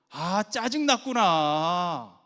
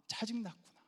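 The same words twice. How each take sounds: First: Loud, long drawn-out acknowledgement; empathetic echo. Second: High, soft acknowledgement; empathetic echo. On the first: Husband echoing wife's feeling, loud drawn-out empathy. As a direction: stretch it out in exaggerated sympathy. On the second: Husband echoing wife's feeling, soft high empathy. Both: Shown as a demonstration. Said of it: "감정을 얘기해주면 돼요".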